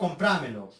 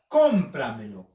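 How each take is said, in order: First: The stress is on a later syllable. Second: The stress is on the first syllable. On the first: The speaker calls it wrong. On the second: The speaker calls it right.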